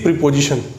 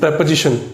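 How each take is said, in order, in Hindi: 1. पहला स्वर लंबा है, जैसे 'pee' में। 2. पहला स्वर छोटा है, जैसे 'pet' में। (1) "usually we speak प्रीपोजिशन" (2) "this word is प्रेपोजिशन"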